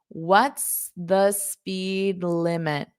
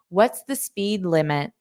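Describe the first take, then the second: First: The question is said slowly. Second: The question is said fast. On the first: "So I'll say it slowly" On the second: "So I'll just say it fast again"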